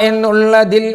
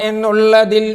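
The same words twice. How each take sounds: No difference in how they are said.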